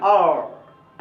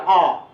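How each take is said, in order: First: The letter ends with a curled-tongue r sound. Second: The letter ends on an open vowel, no r. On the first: "American ... जीभ को ऐसे मोड़ लेता है ... तब बोलता है आर" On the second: "British सिर्फ बोलेगा आ"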